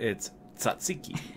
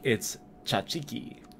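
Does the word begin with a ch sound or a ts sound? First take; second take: ts sound; ch sound. First: The word begins with a ts sound. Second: The word begins with a ch sound. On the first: This is how a non-Greek speaker says it. "If you're not" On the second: This is how a Greek speaker says it. "If you're Greek"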